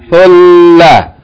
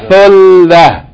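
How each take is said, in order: Both takes have the same delivery.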